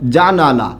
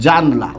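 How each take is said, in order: First: The word has three syllables, with a middle vowel. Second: The word has two syllables, dropping the middle vowel. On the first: "আমি একটা শব্দ লিখলাম হচ্ছে জানালা।" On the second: "আমরা প্রায়ই এরকম উচ্চারণ করি জানলা"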